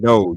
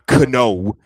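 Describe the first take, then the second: First: The word starts with an N sound. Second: The word starts with a K sound. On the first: The speaker calls it right. "the K is silent" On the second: The speaker calls it wrong. "It's not kno"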